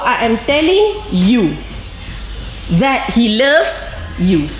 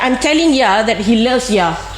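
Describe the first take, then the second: First: Every word is said fully, with clear 'you'. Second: It is said fast, with 'you' reduced to 'ya'.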